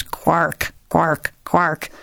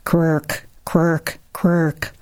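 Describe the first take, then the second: First: Lightly voiced setting hen's warning squawk; a hint of a cross broody hen; deep, ugly hen. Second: Lightly voiced mother hen's hushing cluck; a hint of a reassuring broody hen; deep-toned hen. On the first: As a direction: croak it out like a hen saying keep away. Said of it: "in a deep, ugly voice". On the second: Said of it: "She says in a deep tone".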